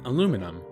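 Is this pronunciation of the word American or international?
American. The word is said the American way. "the distinctly American aluminum"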